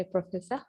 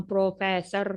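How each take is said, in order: First: Softer "प्रोफेसर" ending "-fessah"; silent R. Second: "प्रोफेसर" with every syllable and final R sounded; hard R. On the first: Retold or imitated. Teacher quoting the film, "प्रोफेसर" with silent R. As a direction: quote "प्रोफेसर" with no final R. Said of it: "वो उनको अक्सर ये कहता है". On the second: Shown as a demonstration. Teacher mocking how we say it, "प्रोफेसर" with hard R. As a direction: land heavily on the R of "प्रोफेसर". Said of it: "हम उस बेचारे का नाम प्रोफेसर करते हैं".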